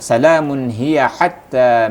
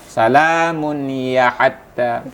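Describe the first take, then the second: First: The h sound is pressed with strong breath. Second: The h sound is weak without breath pressure. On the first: The speaker calls it right. "suara dan napas kita agak sedikit tekan situ" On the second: The speaker calls it wrong. "kalau saatnya kita tidak ada penekan di huruf H"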